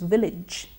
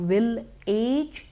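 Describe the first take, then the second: First: The second syllable is a short, reduced ij. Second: The second syllable sounds like the word age. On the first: The speaker calls it right. "it is village" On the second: The speaker calls it wrong. "it's not will age"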